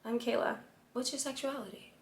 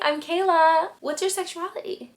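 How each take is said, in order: First: It is said in a less friendly tone. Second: It is said in a warm, friendly tone. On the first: The speaker is showing a different kind of interest. The speaker calls it right. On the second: The speaker is just being pleasant. The speaker calls it wrong.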